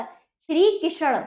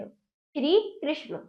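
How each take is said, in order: First: श्री कृष्ण slowly as shree ki-sha-na; wrong full ष. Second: श्री कृष्ण slowly, ष joined to ण; correct half ष. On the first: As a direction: break कृष्ण with a vowel after ष. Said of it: "वो गलत है". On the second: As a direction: say श्री कृष्ण softer, as krish-no. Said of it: "तो श्री कृष्ण होता है". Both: Shown as a demonstration.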